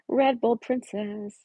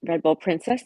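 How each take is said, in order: First: Drawn-out name. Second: Said in the usual way. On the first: Real, not acted.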